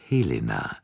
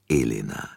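First: "Helena" said with a clear breathy H at the start. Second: "Elena" starting straight on the E, no H; Elena without H. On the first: Poirot corrects the countess, saying "Helena" with its H. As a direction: sound the H in "Helena". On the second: Poirot sets the false name apart, saying "Elena" with no H. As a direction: drop the H: "Elena". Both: Shown as a demonstration. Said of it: "Ihr Name lautet Helena, nicht Elena".

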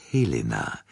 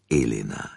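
First: Helena with an audible H at the start. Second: Elena starting straight on the vowel E; Elena without H. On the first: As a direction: breathe a clear H onto Helena. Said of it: "nicht Elena". (Helena mit deutlich gesprochenem H am Anfang) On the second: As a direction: drop the H, say Elena. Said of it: "Ihr Name lautet Helena". (Elena ohne H, mit Vokal am Anfang) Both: A narrator's reading.

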